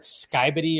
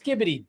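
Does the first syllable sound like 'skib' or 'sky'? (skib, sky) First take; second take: sky; skib. First: The first syllable has a long 'eye' vowel. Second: The first syllable has a short 'ih' vowel. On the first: The speaker calls it wrong. "I think I called it Skybity" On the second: The speaker calls it right. "nope, it's Skibbity"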